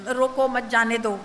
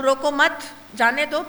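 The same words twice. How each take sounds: First: روکو pause, then مت جانے دو; pause after روکو. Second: روکو مت together, rising on مت, then a break before جانے دو; روکو مت, pause, then جانے دو; pause after مت. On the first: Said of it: "میں اگر روکو کے بعد کوما لگاؤں، اس کا مطلب بدل جائے گا". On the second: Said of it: "پاز اگر یہاں دیا گیا تو پھر جملہ بدل جائے گا". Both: Shown as a demonstration.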